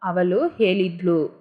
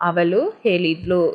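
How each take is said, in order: First: The vowel before the last syllable is dropped. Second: The same.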